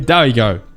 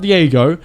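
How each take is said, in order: First: The name begins with a 'die' sound. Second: The name begins with a 'dee' sound. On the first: The speaker calls it right. "Daigo is how you pronounce it" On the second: The speaker calls it wrong. "It's not Diego"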